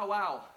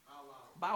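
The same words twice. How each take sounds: First: Higher bow wow dog sound; a brighter doggy bow wow. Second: Soft bow wow dog sound; a soft doggy bow wow. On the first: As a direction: bark bow wow with a lift. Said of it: "that's why our dogs talk". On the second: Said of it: "Woof or?". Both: Shown as a demonstration.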